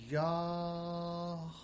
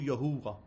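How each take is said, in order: First: The first syllable is breathed in, then breathed out. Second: The name is said normally with an extra middle syllable. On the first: The speaker calls it right. "You breathe out. When you breathe in first, you breathe in, Yah, and then you breathe out" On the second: The speaker calls it wrong. "You do not do Yahuwah... totally fake, totally false"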